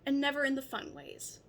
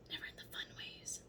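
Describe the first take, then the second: First: Said in the usual way. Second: Whispered cheeky repeat; whispered aside. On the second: Shown as a demonstration. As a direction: whisper it as a secret.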